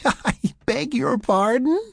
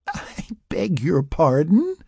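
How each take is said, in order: First: Higher, louder tipsy giggle; louder giggling. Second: Giggling. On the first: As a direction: giggle it out more boldly. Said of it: "she giggled again, a bit louder". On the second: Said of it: "she giggled". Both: A narrator's reading.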